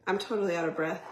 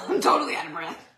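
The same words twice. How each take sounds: First: Breathless from dancing; puffing, short of breath. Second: Laughing and out of breath; breathless with a laugh. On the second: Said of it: "In case you can't tell". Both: Real, not acted.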